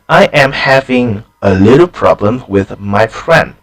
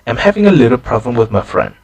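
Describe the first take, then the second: First: Every word is pronounced fully and carefully. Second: The small words are weakened and run together. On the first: The speaker calls it wrong. "it just doesn't sound very natural in English" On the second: The speaker calls it right. "a more natural version"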